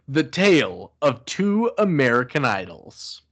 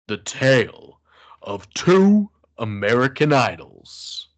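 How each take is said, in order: First: It is said in a normal speaking voice. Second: It is said in a deep, macho voice.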